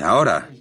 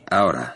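First: It is said somewhat louder. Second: It is said at a normal, soft volume.

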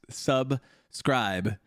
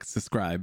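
First: The word is said slowly with clear syllables. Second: The word is rushed and slurred together. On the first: The speaker calls it right. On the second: The speaker calls it wrong.

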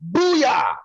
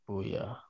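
First: It is said loud and excited. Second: It is said flat and lifeless.

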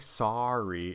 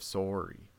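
First: The first vowel sounds like 'ah'. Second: The first vowel sounds like 'or'. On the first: The speaker calls it wrong. "why would you say sorry" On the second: The speaker calls it right. "instead of sorry or O-R"

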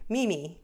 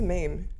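First: The vowel sounds like 'ee' in 'me'. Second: The vowel sounds like 'ay' in 'may'. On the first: The speaker calls it right. "it's meme" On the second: The speaker calls it wrong. "Do I say it wrong? I say mame"

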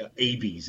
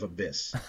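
First: The word is pronounced the misread way. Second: The word is pronounced the standard way. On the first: The speaker calls it wrong. "I would say abyss instead of" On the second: The speaker calls it right. "instead of abyss"

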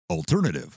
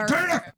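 First: It is said in a radio DJ voice. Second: It is said in an angry tone.

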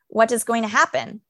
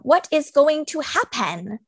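First: The weak words are reduced with an uneven lilt. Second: Every word is said fully with even weight. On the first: The speaker calls it right. "I say" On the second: The speaker calls it wrong. "I don't say"

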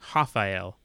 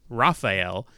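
First: The name begins with a breathy H sound. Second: The name begins with a rolled or English R. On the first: The speaker calls it right. "it's pronounced Rafael, like a H-A-F-A" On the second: The speaker calls it wrong. "for those who are trying to pronounce it Rafael"

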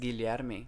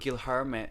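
First: The name is said with Portuguese sounds. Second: The name is said with anglicized sounds. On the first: This is how the name really goes. The speaker calls it right. "and it's Guilherme" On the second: This is how someone else keeps saying it. The speaker calls it wrong. "he's still saying Guilherme"

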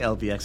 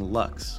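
First: The name is spelled out letter by letter. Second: The name is said as one single word. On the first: "I always say LVX instead of saying Lux" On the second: "because it's Lux. That's what it is"

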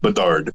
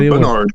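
First: The name has no n sound before the end. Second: The name has an n sound before the end. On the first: The speaker calls it right. "It's Bednar" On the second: The speaker calls it wrong. "It's not Bednar"

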